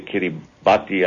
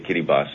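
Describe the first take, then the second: First: The t sound in the name is pronounced. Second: The t sound in the name is silent. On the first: This is how outsiders usually say the name. "you say Kiribati" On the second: This is how the local people say the name. "I say Kiribati. That's how they pronounce it ... The T is silent"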